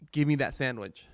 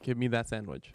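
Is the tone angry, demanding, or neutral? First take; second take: demanding; neutral. First: It is said in a demanding tone. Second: It is said in a neutral tone.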